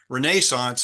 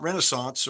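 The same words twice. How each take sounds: First: It is said with a European pronunciation. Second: It is said with a non-European pronunciation.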